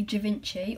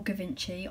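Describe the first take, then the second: First: "Givenchy" starting with a soft zh sound; soft-G pronunciation. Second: "Givenchy" starting with a hard G; alternative pronunciation. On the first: Vlogger unsure of a designer's name, "Givenchy" said with soft G. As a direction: say "Givenchy" as zhuh-VIN-chee. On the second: Vlogger offering another guess at a designer's name, "Givenchy" said with hard G. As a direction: say "Givenchy" as guh-VIN-chee. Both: Shown as a demonstration. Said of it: "I have no idea".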